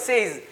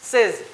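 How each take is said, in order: First: The vowel is a long gliding 'ay' sound. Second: The vowel is a short 'e' sound. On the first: The speaker calls it wrong. "સેઇઝ નહીં" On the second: The speaker calls it right. "સેઝ બોલાય"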